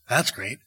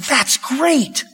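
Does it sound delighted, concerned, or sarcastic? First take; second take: sarcastic; delighted. First: It sounds sarcastic and mocking. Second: It sounds truly delighted.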